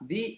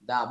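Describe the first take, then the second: First: The word ends in a long ee vowel. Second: The word ends in a short uh vowel. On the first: The next word begins with a vowel sound. "যদি ভাওয়াল সাউন্ডের পূর্বে বসে তাহলে আমরা বলবো দি" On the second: The next word begins with a consonant sound. "যদি consonant সাউন্ডের সাউন্ডের পূর্বে বসে তাহলে বলবো দা"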